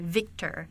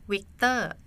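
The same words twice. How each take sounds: First: It starts with a buzzing V sound. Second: It starts with a softer sound, not V. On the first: "when you say Victor" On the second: "we say Victor. so it's softer. We don't have the V sound"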